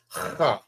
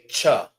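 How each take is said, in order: First: It begins with a breathy h sound. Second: It begins with a hard ch sound. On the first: The speaker calls it right. "It's ha" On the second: The speaker calls it wrong. "Some people may say cha, but it's not cha"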